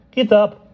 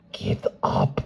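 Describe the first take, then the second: First: Much higher, louder regal order; imperious command. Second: Said in the usual way. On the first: Acted. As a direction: command them up, gracious but firm. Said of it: "a voice imperious and at the same time pleasant". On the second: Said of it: "a voice imperious".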